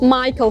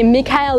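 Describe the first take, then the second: First: The name is said as 'My-kl'. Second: The name is said as 'Mee-ka-el'. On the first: The speaker calls it right. "Майкл Корс" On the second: The speaker calls it wrong. "правильно называется не Микаэл"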